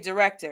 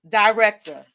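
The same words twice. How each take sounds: First: The first syllable sounds like "der". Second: The first syllable sounds like "dye". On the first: This is how it is said in the Midwest. "from Detroit, I would say director because we say directions. Even though it's an I, we say der" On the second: This is how it is said on the East Coast. "East Coast"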